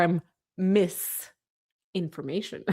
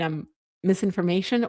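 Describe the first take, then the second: First: "misinformation" slowly split with a pause after MISS; split-word pun. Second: Said in the usual way. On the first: Shown as a demonstration. Streamer checking a viewer's pun, "misinformation" split into MISS, pause, information. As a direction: say "misinformation" as two words, MISS, then information. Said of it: "Is that what you mean?". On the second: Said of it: "do you mean I'm misinformation or".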